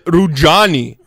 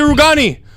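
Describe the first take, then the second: First: The middle consonant is a soft j sound. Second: The middle consonant is a hard g sound. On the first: The speaker calls it wrong. "he didn't say properly. He said Daniele Rujani" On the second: The speaker calls it right. "it's not that hard to say Rugani"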